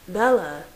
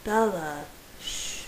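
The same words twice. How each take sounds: First: Mild alarm, calling her name; understated alarmed call. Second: Gentle hush, sinking to a soft shh; tender calming murmur; soothing. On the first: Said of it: "I said in alarm". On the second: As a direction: soothe her, then hush her softly. Soothing the distressed wife. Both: A narrator's reading.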